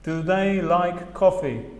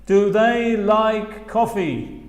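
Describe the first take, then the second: First: Said in the usual way. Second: Slow, clear "Do they like coffee"; slow demo question; slow model question. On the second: Shown as a demonstration. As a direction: model it slowly. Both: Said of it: "las posibles respuestas son".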